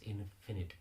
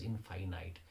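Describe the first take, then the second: First: "infinite" said as IN-fi-nit; correct pronunciation of infinite. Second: "infinite" said as in-fine-ite; mispronounced infinite. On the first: Teacher corrects a common mistake, "infinite" pronounced IN-fi-nit. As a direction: say "infinite" with short i's, stressed at the start. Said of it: "when you say I N F I N I T E". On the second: Teacher shows students the common mistake, mispronounced "infinite" as in-fine-ite. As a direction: say "infinite" with both i's long, like "fine night". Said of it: "Most of the people pronounce the word as". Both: Shown as a demonstration.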